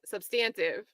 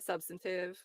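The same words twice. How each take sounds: First: It is said with a British pronunciation. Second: It is said with an American pronunciation. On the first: "I used to say the U K pronunci pronunciation" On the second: "I'll switch to the American"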